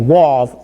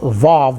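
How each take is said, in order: First: The word begins with a W sound. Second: The word begins with a V sound.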